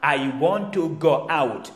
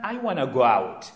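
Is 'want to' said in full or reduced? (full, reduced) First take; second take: full; reduced. First: Want to is said as two full words. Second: Want to is reduced to one word, wanna.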